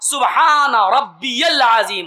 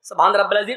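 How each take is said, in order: First: Each word is pronounced clearly and separately. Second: The words are rushed and run together. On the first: The speaker calls it right. "एक एक जुमला साफ, एक एक लफ्ज साफ" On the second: The speaker calls it wrong. "ऐसे नहीं"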